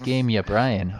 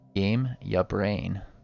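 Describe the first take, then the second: First: The name ends with the sounds 'O'Brien'. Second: The name ends with the sounds 'Ya Brain'. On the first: The speaker calls it wrong. "I keep saying it wrong" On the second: The speaker calls it right. "which sounds good"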